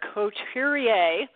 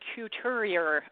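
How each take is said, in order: First: The name is said with a French-style accent. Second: The name is said with an American accent.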